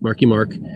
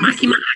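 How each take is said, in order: First: It is said in his normal voice. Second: It is said in a Marge Simpson voice.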